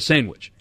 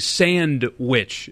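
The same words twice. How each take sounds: First: The two syllables are run together. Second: The two syllables are clearly separated.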